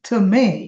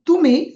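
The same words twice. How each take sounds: First: The second syllable is given strong stress. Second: Neither syllable is given strong stress.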